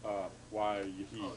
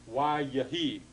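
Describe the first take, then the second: First: "yahi" stressed on its last syllable "hi", the schwa light; corrected final stress. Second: "yahi" stressed on the first syllable, on the yod with schwa. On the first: Teacher correcting his own mistake for the class, stressing final "hi" in "yahi". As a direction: keep the weight on the final "hi" of "yahi". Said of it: "the accent stays there". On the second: Teacher demonstrating the form to the class, stressing "ya" in "yahi". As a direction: lean on the "ya" of "yahi", not the end. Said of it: "the accent is, is there". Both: Shown as a demonstration.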